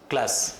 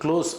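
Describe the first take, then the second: First: The vowel is an open 'ah' sound. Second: The vowel is a rounded 'aw' sound. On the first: The speaker calls it wrong. "கிளாஸ்ன்னு சொல்லக்கூடாது" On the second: The speaker calls it right. "க்ளோஸ் அப்படின்னு சொல்லணும்"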